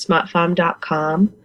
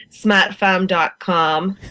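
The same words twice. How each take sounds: First: Said in the usual way. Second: Smatfam dot com with broad Boston a, slow; Boston accent. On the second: Shown as a demonstration. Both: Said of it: "or as we say in a Boston accent".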